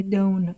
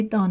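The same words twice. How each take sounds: First: "دون" with a long O, like "dohn"; wrong long-O pronunciation. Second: "دان" with a short uh vowel, like "dun"; "دان" with no long O, silent final E; usual exception pronunciation. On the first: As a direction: say "دون" to rhyme with "bone". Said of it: "باعث بشه این صدای او بده". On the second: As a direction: say "دان" to rhyme with "sun". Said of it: "این ای ماجیک نیستش". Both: Shown as a demonstration.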